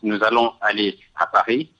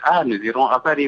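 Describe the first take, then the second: First: It is said in a plain, neutral tone. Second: It is said in a warm, affectionate tone.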